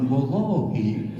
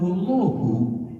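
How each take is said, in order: First: The word ends with an i vowel. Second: The word ends with a u vowel. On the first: It is an oath. "bukan wallahi" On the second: It is not an oath. "aku kan bilang wallahu"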